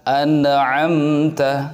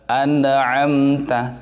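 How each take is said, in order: The two takes are said the same way.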